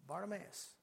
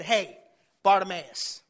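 First: Very soft, unforced name call; hushed call. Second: Loud, firm summons; a little frustrated. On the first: Shown as a demonstration. Preacher showing Jesus calling over a roaring crowd, hushed. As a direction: call him without raising your voice at all. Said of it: "like, at that tone". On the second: Acted. Preacher voicing Jesus commanding the blind man, mildly frustrated. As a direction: call him over with an edge of impatience. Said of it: "he's probably a little frustrated".

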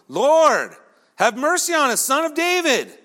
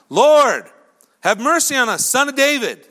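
First: Higher, more insistent shouted plea; crying out all the more. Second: Loud, high imploring call; crying out. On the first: Rebuked blind men calling to Jesus, crying out all the more. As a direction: push the cry higher, more desperate to be heard. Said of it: "they cried out all the more". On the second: Two blind men calling to Jesus from the roadside, crying out. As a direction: shout it out to be heard. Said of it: "they cried out". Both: Acted.

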